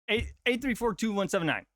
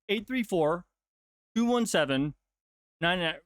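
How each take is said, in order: First: The digits are said in one unbroken run. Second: The digits are said in groups with pauses. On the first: The number is not broken into chunks. The speaker calls it wrong. "That's like what?" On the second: The number is broken into chunks. The speaker calls it right. "But if I broke it down in"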